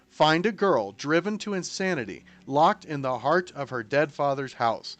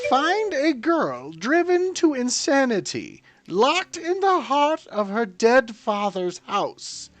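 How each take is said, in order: First: It is read in a plain voice. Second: It is read in a put-on accent.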